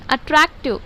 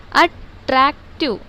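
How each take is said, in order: First: Said in the usual way. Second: attractive slowly as अट, रैक, टिव; three separate syllables. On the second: Shown as a demonstration. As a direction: break attractive with a pause after each syllable. (Attractive को तीन हिस्सों में रुक-रुककर) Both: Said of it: "ये भी तीन हो रहा है देखो सिलेबल".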